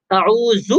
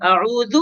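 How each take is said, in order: First: اعوذ with a buzzing, whistled z; wrong z for dhal. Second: اعوذ with voiced th as in "this"; correct soft dhal. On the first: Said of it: "صحیح نہیں ہے". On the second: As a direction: say اعوذ with tongue-tip dhal, no whistle. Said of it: "زال اور زا میں یہی فرق ہے". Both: Shown as a demonstration.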